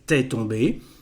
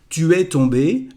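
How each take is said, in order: First: Tu and es merge into one syllable. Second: Tu and es are said as separate words.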